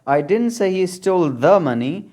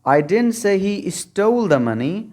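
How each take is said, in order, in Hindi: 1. the पर stress है। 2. stole पर स्ट्रेस है। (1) "अगर द पर स्ट्रेस डालेंगे" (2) "अगर स्टोल को आप स्ट्रेस्ड बना देंगे"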